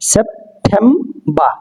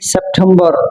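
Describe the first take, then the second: First: The word ends on a vowel, no r. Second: The word ends with an r sound. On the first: The speaker calls it right. "আর এর সাউন্ডটা কি silent থাকবে" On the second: The speaker calls it wrong. "সেপ্টেম্বর হবে না"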